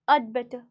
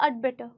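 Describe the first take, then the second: First: The word had shrinks to a short ud. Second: The word had shrinks to a short ud.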